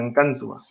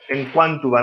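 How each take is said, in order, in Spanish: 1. La u después de la q es muda. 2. La u después de la q se pronuncia. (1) "no diríamos en Cantua" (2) "diríamos en Quantua"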